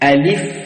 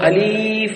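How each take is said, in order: First: The middle vowel is kept short. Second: The middle vowel is stretched long. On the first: The speaker calls it right. "அப்படி ஓதுவோம்" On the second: The speaker calls it wrong. "நீட்டி உச்சரிக்காது"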